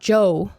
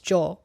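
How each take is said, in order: First: The word ends in an English gliding oh sound. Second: The word ends in a clean Spanish o vowel. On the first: The speaker calls it wrong. "it's not Joe" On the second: The speaker calls it right. "it's jo"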